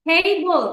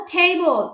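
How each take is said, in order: First: table as two beats, a long টে, then বল; clapped-out syllables. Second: Said in the usual way. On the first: Shown as a demonstration. Teacher giving two claps for table, table in two syllables. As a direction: stretch টে and set বল apart in table. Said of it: "দুইটা clap দিতে পারলাম". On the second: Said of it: "টেবলে আছে দুইটা syllable".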